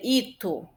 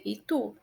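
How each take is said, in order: First: Ito slowly stressed on the first syllable, I-tu. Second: Itu with the weight on final tu; stress on TU. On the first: Teacher showing if i were stronger, first-syllable stress. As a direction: lean on i and drop the end of ito. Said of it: "Se fosse o i". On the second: Teacher saying how we pronounce it, final stress. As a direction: land on the last syllable of itu. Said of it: "o tu é mais forte". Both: Shown as a demonstration.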